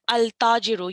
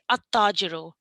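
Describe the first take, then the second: First: The L of the article is clearly pronounced. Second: The L merges into a doubled T sound. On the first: The speaker calls it wrong. "you wouldn't pronounce it al tajiru" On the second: The speaker calls it right. "You'd say at tajiru"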